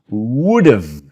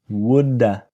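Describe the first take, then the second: First: 'Have' is reduced to a v sound. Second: 'Have' is reduced to an uh sound. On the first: This form is correct in writing. "So v sound" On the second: This form is used only in speech. "this is not correct in writing, but we use it all the time in speaking"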